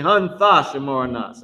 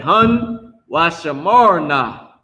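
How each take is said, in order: First: "Hun Thashamarna" with Th, not W; corrected pronunciation. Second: "Hun Washamarna" slow, with W in place of Th; mistaken pronunciation. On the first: Teacher correcting own slip for students, "Hun Thashamarna" with Th. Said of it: "I mean". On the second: Teacher slipping while modelling the word, slow "Hun Washamarna". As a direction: say "Hun Washamarna" drawn out, starting Wa. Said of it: "I mean, Hun Thashamarna". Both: Shown as a demonstration.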